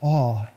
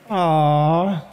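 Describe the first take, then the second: First: It is said with hushed, reverent wonder. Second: It is said softly and tenderly, like cooing. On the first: Something is vast and worthy of reverence. "It's the same word, but with a different tone" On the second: Something is sweet and precious. "the precious, the darling, the aww"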